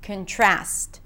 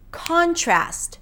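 First: The stress falls on the second syllable. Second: The stress falls on the first syllable. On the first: It is a verb. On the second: It is a noun.

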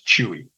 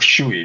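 First: The name is said the non-Brazilian way. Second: The name is said the Brazilian way.

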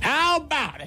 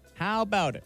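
First: It is said with much energy and force. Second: It is said with little energy or force. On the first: The speaker calls it right. "There you go" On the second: The speaker calls it wrong. "You didn't bring it with anywhere near as much heat as you did earlier"

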